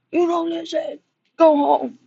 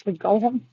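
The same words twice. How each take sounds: First: Retold owner's yell, higher and louder; imitating a yell. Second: Said in the usual way. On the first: Owner yelling at his unleashed dog, imitated loud. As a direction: bark it at the dog like the owner did. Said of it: "he yelled at the dog". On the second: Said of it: "He was just like".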